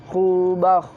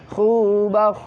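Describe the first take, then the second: Both takes have the same delivery.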